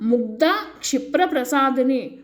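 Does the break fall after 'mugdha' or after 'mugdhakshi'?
after mugdha. The break falls right after 'mugdha'. The speaker calls it right. "ఇక్కడ ముగ్ధ క్షిప్ర ప్రసాదిని అని చదవాలి"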